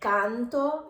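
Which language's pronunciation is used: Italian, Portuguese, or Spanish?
Italian. The mouth opens wide, exaggerated Italian style. "canto italiano"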